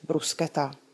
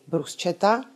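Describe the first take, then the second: First: The middle consonant is a hard 'sk' sound. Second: The middle consonant is a soft 'sh' sound. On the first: The speaker calls it right. "nýbrž bruschetta" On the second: The speaker calls it wrong. "italská topinka není bruschetta"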